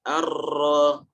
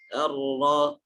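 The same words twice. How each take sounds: First: The R is pressed and rolled several times. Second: The R is touched lightly, without rolling. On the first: The speaker calls it wrong. "bukan Ar-Ra" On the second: The speaker calls it right. "ditempel saja sehingga pengulangannya itu seadanya"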